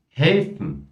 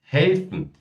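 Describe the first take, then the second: No difference in how they are said.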